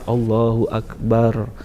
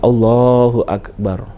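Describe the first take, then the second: First: The b in akbar is held like a double consonant. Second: The b and its vowel in akbar are short. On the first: The speaker calls it wrong. "ditahan baknya seolah-olah itu adalah tasdid" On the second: The speaker calls it right. "pengucapan yang tepat adalah Allahu Akbar"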